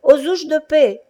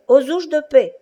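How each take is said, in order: First: High, loud call for help; shouting cobbler. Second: High, loud repeated cry for help; shouting cobbler. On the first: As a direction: yell it from the back of the shop. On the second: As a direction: call out again from the shop. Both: Acted. Old cobbler calling from his shop, high loud shout. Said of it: "Un vieux cordonnier juif criait".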